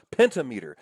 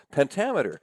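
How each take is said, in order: First: "pentameter" said as PEN-ta-MEE-ter; split-word pronunciation. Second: Said in the usual way. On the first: Shown as a demonstration. Teacher puts a half-remembered term together, "pentameter" as PEN-ta-MEE-ter. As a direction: say "pentameter" as penta plus meter. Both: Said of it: "You might have heard that word before".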